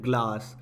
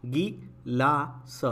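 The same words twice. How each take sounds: First: ग्लास with half g cluster; English glass. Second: गिलास slowly with full गि syllable; Hindi gi-laas. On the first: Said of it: "ग्लास भी बोलते हैं". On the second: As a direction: sound out गिलास in two beats. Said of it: "गी सिखाया जाता है". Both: Shown as a demonstration.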